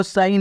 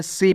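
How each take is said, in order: First: सही misread in two syllables, "sa-hee"; wrong reading of SHE. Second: सी as one syllable, "see"; correct reading of SHE. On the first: Teacher warning learners off a misreading, सही as "sa-hee". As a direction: sound out the H in सही. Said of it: "नहीं पढ़ना है". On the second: Teacher giving learners his reading of she, सी as "see". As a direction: say सी with plain S and long "ee". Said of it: "क्या पढ़ना है". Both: Shown as a demonstration.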